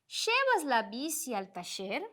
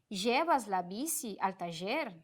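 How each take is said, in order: First: The ll is said like an sh sound. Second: The ll is said like a zh sound. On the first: "este som mais de sh" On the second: "esse j"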